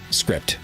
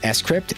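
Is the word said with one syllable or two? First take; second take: one; two. First: It is said as the single syllable script. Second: The S is said separately before crypt. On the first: The speaker calls it wrong. "It's not script" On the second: The speaker calls it right. "that's actually how it's pronounced. It's Scrypt"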